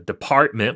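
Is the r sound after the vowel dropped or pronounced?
pronounced. The r after the vowel is pronounced.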